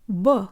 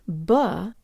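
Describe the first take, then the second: First: The vowel is said with lips kept rounded. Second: The vowel is said with lips pulled back. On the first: The speaker calls it right. "make sure you are not pulling your lips back" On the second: The speaker calls it wrong. "It's not ba"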